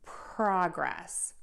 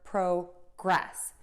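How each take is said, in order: First: The stress is on the first syllable. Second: The stress is on the second syllable. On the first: It is used as a noun. "progress is the noun, and we're going to stress the word pro" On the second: It is used as a verb. "in the verb progress. So we're going to stress the gress"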